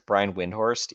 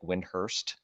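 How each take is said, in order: First: The second syllable sounds like 'horst'. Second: The second syllable sounds like 'hurst'. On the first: This is how most people say the name. "everybody says Brian Windhorst" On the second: This is how the man himself says his name. "he says Brian Windhorst, like Windhurst, kind of"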